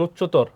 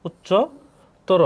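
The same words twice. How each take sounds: First: Said in the usual way. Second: উচ্চতর drawn out very slowly, syllable by syllable, higher; slow spelled-out demo. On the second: Shown as a demonstration. Teacher to exam students, spelling out উচ্চতর very slowly. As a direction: stretch উচ্চতর out slowly so each syllable is heard. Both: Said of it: "অ এর উচ্চারণ উকার হবে".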